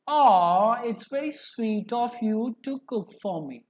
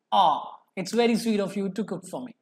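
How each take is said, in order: First: Tender, touched thanks; loving. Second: Said in the usual way. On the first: Shown as a demonstration. Teacher demos love to students: tender touched thanks. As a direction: thank them sweetly for the meal. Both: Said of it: "I'm expressing my love".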